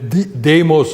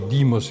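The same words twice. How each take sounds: First: It is pronounced in the classical, non-modern way. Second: It is pronounced the modern Greek way.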